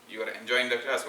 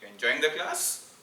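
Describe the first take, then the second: First: It sounds happy and pleased. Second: It sounds doubtful and questioning.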